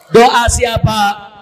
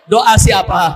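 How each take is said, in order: First: "Doa siapa?" stretched out very slowly and loud; "Doa siapa?" drawn out slowly for weight; slow drawn question. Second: Louder, punchy "Doa siapa?"; "Doa siapa?" called out loud and quick; emphatic question. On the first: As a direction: let "Doa siapa?" hang, word by word. Same question repeated, drawn out. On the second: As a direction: fire "Doa siapa?" at the crowd. Preacher asks the crowd, twice. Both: Real, not acted.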